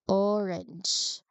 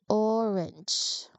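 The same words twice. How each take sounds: No difference in how they are said.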